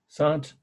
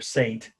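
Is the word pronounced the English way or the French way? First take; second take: French; English. First: The word is pronounced the French way. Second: The word is pronounced the English way.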